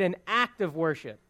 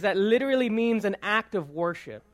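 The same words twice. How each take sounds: First: "act" stressed, the rest of the phrase falls away. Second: Said in the usual way. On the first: Shown as a demonstration. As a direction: act leaned on as the key word. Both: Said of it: "the stress is on the word act".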